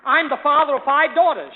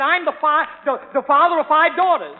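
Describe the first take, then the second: First: Father of five daughters, said firmly and a bit louder; mock-dignified declaration; proud announcement. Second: Daughters hammered home louder on the repeat; exasperated repeat of daughters. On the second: Retold or imitated. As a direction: say it again, insistent. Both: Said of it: "I said".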